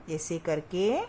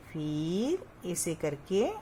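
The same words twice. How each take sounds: First: Said in the usual way. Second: Slow. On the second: Shown as a demonstration. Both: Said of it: "धीरे धीरे से आपको लिखना है".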